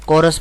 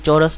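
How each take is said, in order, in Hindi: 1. शब्द की शुरुआत 'k' की आवाज़ से होती है। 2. शब्द की शुरुआत 'ch' की आवाज़ से होती है। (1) "कोरस पढ़ा जाएगा" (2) "ये चौरस नहीं पढ़ा जाएगा"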